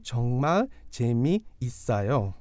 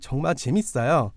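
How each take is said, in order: First: It is said slowly. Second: It is said at normal speed.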